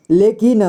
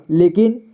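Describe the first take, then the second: No difference in how they are said.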